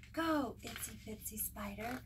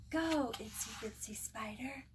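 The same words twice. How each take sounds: First: Said in the usual way. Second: Whispered cheer, no voice. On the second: Acted. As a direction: breathe the cheer as a secret. Chant fading to whisper.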